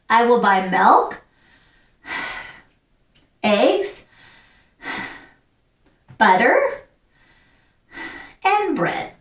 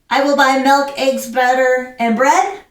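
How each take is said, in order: First: A short breath pause follows each listed item. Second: The list is said without breath pauses between items. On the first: The speaker calls it right. "So you're taking a breath, but you're continuing with the sentence" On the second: The speaker calls it wrong.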